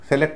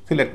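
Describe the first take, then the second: First: The first vowel sounds like 'e' in 'set'. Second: The first vowel is a light, short 'i'. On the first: The speaker calls it wrong. "सेलेक्ट नहीं बुलाया जाएगा" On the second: The speaker calls it right. "सिलेक्ट बुलाया जाएगा"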